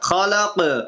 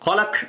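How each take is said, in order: First: The final consonant is fully pressed with a bouncing echo. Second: The final consonant is cut off without any echo. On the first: The speaker calls it right. "இறுதியில வந்தா முழுசா அழுத்தணும்" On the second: The speaker calls it wrong. "ஹலக் அப்படின்னு படிக்காம"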